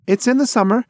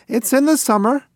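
First: High, loud, eager insistence; quick eager correction, pitched up; eager blurt. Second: Even higher, pleading repeat; more insistent. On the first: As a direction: blurt it out so he still gets a present. Pigeon blurts birthday. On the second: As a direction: say it again, begging to be heard. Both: Acted.

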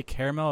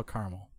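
First: Caramel said in three syllables, KAIR-uh-mel; caramel as "care-a-mel". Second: Caramel squeezed to two syllables, KAR-mul; caramel pronounced CAR-mul. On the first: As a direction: say caramel with a full middle vowel, KAIR-uh-mel. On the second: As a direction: say caramel as "car-mul", middle vowel dropped. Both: Shown as a demonstration. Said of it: "did you say caramel or caramel".

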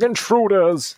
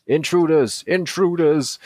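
First: High, hammy alarm shout; rubbish robot voice. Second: Robot guard alarm. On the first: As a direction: squawk it like a bad robot. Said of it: "That was a bit rubbish". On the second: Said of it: "That's what he sounds like". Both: Acted.

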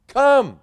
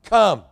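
First: Come, stressed high and strong; emphatic come. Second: Said in the usual way. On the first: Shown as a demonstration. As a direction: Come called out high and louder. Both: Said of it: "what's the one word".

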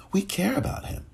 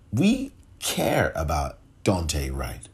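First: Breathy whispered echo, much higher. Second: Said in the usual way. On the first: Real, not acted. Podcaster echoing a victim's name, whispered. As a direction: let the words fall to a whisper.

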